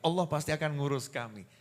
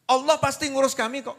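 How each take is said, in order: First: It sounds sincere, content and accepting. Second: It sounds resentful, like a protest.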